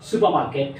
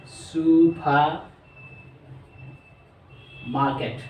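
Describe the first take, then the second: First: Said in the usual way. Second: Very slow supermarket, each syllable held. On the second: Shown as a demonstration. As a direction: spell out supermarket in sound, slowly. (Supermarket খুব ধীরে টেনে) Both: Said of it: "চারবার উচ্চারণ করা হয়".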